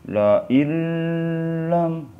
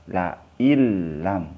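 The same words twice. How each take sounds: First: La ilam very slow and much higher, with a nasal hum drawn out; wrong reading. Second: La ilam with a doubled l and no nasal hum; la ilam read straight, the n fully merged into the l; correct recitation. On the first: Teacher mimics the mistaken nasal la ilam for students. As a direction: drag la ilam out slowly, humming the nasal. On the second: Teacher models the correct reading of la ilam. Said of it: "Bukan la ilam". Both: Shown as a demonstration.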